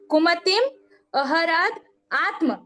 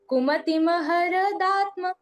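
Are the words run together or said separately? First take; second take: separate; run together. First: Each word is said separately, not linked. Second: The words are run together into one flow. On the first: "लेकिन ये है कैसा" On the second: "लेकिन पूरा एक साथ पढ़ेंगे तो ऐसा पढ़ाएगा"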